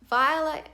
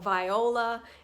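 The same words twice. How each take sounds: First: The name is said with two syllables. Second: The name is said with three syllables. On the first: The speaker calls it right. "pronounced with two syllables" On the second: The speaker calls it wrong. "or viola"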